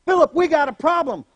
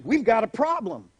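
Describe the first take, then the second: First: Louder, higher call. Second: Said in the usual way. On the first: Retold or imitated. Jesus calling Philip again, louder. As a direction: shout it across to Philip.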